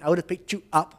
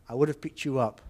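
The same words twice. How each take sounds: First: 'You' and 'up' are said separately, without w. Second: A w sound joins 'you' to 'up'. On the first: The speaker calls it wrong. "I'm not saying" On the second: The speaker calls it right. "I'm saying ... we often intrude a W to link it"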